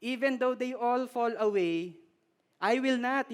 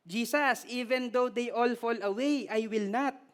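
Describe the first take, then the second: First: Put-on Filipino accent. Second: Put-on Filipino-accented English, higher and earnest. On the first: Preacher voicing Peter with a Filipino accent. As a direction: give Peter a Filipino lilt. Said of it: "yung accent". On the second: Preacher voicing Peter in a Filipino accent. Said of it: "Pagka Pilipino yung accent".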